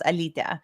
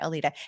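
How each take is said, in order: First: The name has a Lithuanian pronunciation. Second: The name has an Americanized pronunciation. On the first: "in Lithuanian, it it's pronounced Alytė" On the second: "the way that I pronounce it is like the Americanized version"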